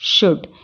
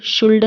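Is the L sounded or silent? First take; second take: silent; sounded. First: The L is silent before the D. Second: The L is sounded before the D. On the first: The speaker calls it right. "तो हम इसको कैसे पढ़ेंगे" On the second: The speaker calls it wrong. "शुल्ड नहीं पढ़ेंगे"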